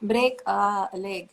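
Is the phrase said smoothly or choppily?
choppily. The phrase is said choppily, broken apart. The speaker calls it wrong.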